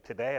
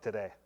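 First: Today with a sharp rising question tune; incredulous question. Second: Today said low with a flat falling close; Today. dropped down and final, settling it; firm answer. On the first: Wife doubting the trip, Today? rising. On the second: Husband insisting to his wife, Today. falling firmly. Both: Retold or imitated.

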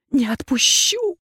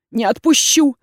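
First: Strained hoarse "Не отпущу!", higher; "Не отпущу!" croaked, stressed on не; hoarse wheeze. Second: Louder defiant refusal; firm loud "Не отпущу!"; defiant cry. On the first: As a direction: rasp out the refusal through exhaustion. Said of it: "хрипела я". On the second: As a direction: refuse outright, raising the voice. She refuses to let go. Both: A narrator's reading.

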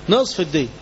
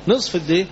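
First: نصف الدية said with the voice falling at the end, settled; a closing drop on نصف الدية; falling, final answer. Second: نصف الدية said with the voice rising at the end, as if asking; a questioning lift on نصف الدية. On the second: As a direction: ask it back to the class: نصف الدية rising. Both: Shown as a demonstration.

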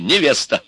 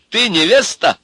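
First: Невеста answered with a falling tune; self-given answer. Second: High, loud challenge on невеста; challenging question. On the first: Ivan answering for Milka, mocking. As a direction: answer your own question with a falling невеста. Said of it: "И сам отвечаю". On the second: Ivan questioning Milka, challenging. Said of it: "Я спрашиваю глобально". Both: A narrator's reading.

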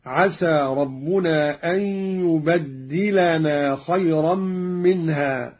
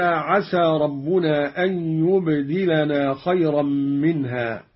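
First: "يبدلنا" recited slowly as "yubaddilana"; geminated d, "yubad-dilana", in "يبدلنا"; doubled dal. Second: Said in the usual way. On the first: Shown as a demonstration. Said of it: "بتشديد الدال".

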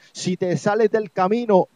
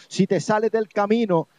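No difference in how they are said.

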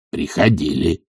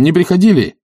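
First: Low, quieter servant voice; subdued low reply; servant's answer. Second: High, pressing question. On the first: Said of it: "отвечал Захар". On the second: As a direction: ask sharply in a raised voice. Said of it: "спросил он". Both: A narrator's reading.

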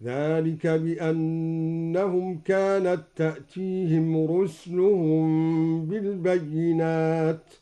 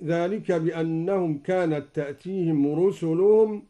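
First: رسلهم said rus-luhum with sukun on s; slow recitation stilling the sin; silent sin in رسلهم. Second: Quran recitation. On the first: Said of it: "أسكن السين هكذا". (إسكان السين في رسلهم) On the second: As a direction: recite with measured melody. Recites verse before demo. (تلاوة مجودة) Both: Shown as a demonstration.

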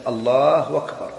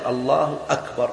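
First: الله أكبر with the hamza of أكبر turned into a waw, slowly. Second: Said in the usual way. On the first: Shown as a demonstration. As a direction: imitate old folks saying الله وكبر. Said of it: "بعض الناس يكبر". (تسهيل الهمزة واوا في الله أكبر) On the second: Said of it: "لا يقول".

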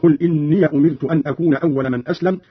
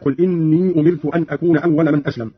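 First: إني said "inniya" before أمرت; voweled final ya in إني; fatha on the ya. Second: Said in the usual way. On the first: Shown as a demonstration. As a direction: end إني in a short -ya, not a long i. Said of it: "بفتح ياء الإضافة".

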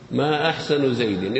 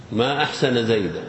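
First: ما أحسن زيد as ma ahsanu Zaydin, asking; question reading. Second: ما أحسن زيدا with Zaydan ending, said as wonder; exclamation reading. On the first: Teacher restating the question reading for the class, rising. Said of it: "استفهام صحيح". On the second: Teacher confirming the exclamation for the students, marveling. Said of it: "من باب التعجب". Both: Shown as a demonstration.

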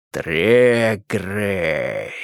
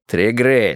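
First: Slow low menacing stretch; sinister drawl. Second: Said in the usual way. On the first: Acted. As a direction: draw the name out like a threat. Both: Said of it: "зловеще протянул Карпов".

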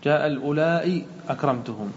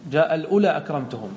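First: الأولاء lengthened, closing on hamza and i; madd with hamza. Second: الأولى in the phrase with no final hamza; short alif ending. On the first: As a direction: hold the aa of الأولاء before أكرمتهم. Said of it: "وبالمد تقول". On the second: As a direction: run unstretched الأولى straight into أكرمتهم. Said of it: "بالقصر تقول". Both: Shown as a demonstration.

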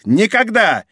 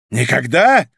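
First: High exclaimed refusal; defiant higher-pitched cry; emphatic refusal. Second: Restrained, challenging repeat; challenging echo. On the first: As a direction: refuse outright, pitch raised. Duke refuses to sign. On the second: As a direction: throw the word back as a challenge. Grim echo of the refusal. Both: A narrator's reading.

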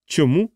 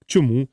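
First: Higher, surprised question rising at the end; taken aback, pitch lifting; astonished. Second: Said in the usual way. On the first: A narrator's reading. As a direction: echo it in mild disbelief. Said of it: "Крісті здивовано зиркнув на неї". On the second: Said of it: "запитала вона".

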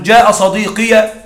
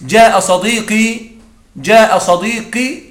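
First: جاء صديقي said slowly with the ending "sadiqiya"; slow "jaa sadiqiya" for جاء صديقي; slow demo, ya sounded. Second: جاء صديقي said slowly ending in short "-i"; slow "jaa sadiqi" for جاء صديقي; slow demo, short ending. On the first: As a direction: stretch جاء صديقي and open the final ya. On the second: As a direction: stretch جاء صديقي but end on a short "i". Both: Shown as a demonstration. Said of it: "أقول".

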